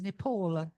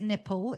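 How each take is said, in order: First: The word is said to sound like 'Nepal'. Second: The word is said to sound like 'nipple'. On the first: The speaker calls it right. "It is Nepal" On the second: The speaker calls it wrong. "Please do not pronounce it nipple"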